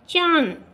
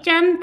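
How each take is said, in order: First: The vowel is nasalized through the nose. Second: The nasal is said as a consonant. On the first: "अब ये क्या है" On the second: "पहले आपने जब केवल अनुस्वार लगा रखा था तो ये चंद था"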